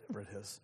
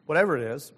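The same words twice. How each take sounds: First: Much softer, dropped-away repeat; quiet echo. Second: Said in the usual way. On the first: Real, not acted. Preacher repeating the phrase to himself, much softer. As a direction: let the repeat fall almost to nothing.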